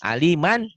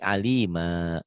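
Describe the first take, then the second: First: The word ends with an n sound. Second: The word ends with a long vowel. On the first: The reading continues without a stop. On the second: The reading stops on this word.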